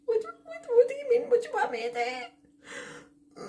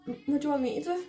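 First: Very high, tearful wail falling away; incredulous wail. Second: A touch higher, quick offhand question; lightly voiced dad. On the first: Retold or imitated. Daughter replies to dad about the rat, despairing wail. Her wailed reply to dad. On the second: Dad answers her phone call about the rat, lightly imitated. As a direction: toss it off like an unbothered dad. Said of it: "and my dad's like".

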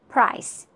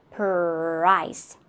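First: Said in the usual way. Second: "price" drawn out, p and r split apart; slow split sounds. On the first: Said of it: "That is natural". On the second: Shown as a demonstration. Teacher breaking a word into sounds, slow split sounds. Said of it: "So, p".

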